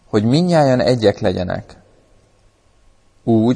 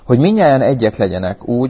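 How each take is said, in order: First: It is read at a slower pace. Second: It is read at a normal pace.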